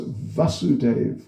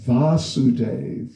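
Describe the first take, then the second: First: The first vowel is short. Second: The first vowel is long. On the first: This is the father's name. "the father's Vasudev with a short A" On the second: This is the son's name. "Krishna is Vasudev with a long A"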